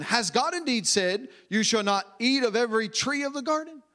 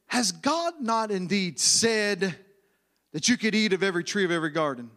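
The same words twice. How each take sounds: First: Said in the usual way. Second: Low, sly stress on "not indeed said", then rushed fast; serpent's leading question, low and fast; insinuating emphasis. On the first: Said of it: "there's a way to say this". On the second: Shown as a demonstration. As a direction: slither the question in low and quick. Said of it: "make sure that you understand the emphasis".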